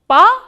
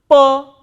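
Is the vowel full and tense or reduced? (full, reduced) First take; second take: full; reduced. First: The vowel is full, stressed and tense. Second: The vowel is short, unstressed and reduced. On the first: "this a is pronounced pronounced more tensely" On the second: "than this a"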